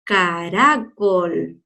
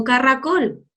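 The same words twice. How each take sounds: First: "caracol" drawn out syllable by syllable; teaching a child to sound it out; slow stretched caracol. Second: Said in the usual way. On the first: Shown as a demonstration. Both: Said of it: "no le digo caracol".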